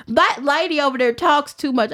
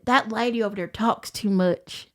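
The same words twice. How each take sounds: First: Mock Southern twang, a little louder; imitating a rival player's Southern twang. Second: Said in the usual way. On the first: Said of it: "I had to do her little twang". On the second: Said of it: "Let me do it".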